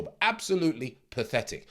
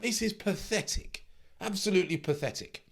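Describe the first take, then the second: First: Said in the usual way. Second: High, scornful "pathetic"; scornful disbelief. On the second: Real, not acted. Coach scoffing at a trader who quit early, high and scornful. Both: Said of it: "getting a little bit, you know, emotional".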